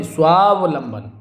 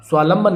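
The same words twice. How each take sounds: First: स्वावलंबन slowly, "svaa-va-lamban"; middle va sounded. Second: स्वालंबन as "svaa-lamban"; v dropped. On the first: Teacher correcting the word, slow स्वावलंबन with "va". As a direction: stretch स्वावलंबन to show the middle "v". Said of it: "ये शुद्ध होगा". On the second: Teacher showing the mistake, स्वालंबन with missing "va". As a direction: skip the middle "v" in स्वालंबन. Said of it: "स्वालंबन नहीं". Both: Shown as a demonstration.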